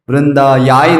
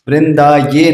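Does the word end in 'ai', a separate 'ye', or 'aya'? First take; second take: aya; ye. First: The word ends in an 'aya' sound. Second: The word ends in a separate 'ye' syllable. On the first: "नहीं है" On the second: "नहीं है"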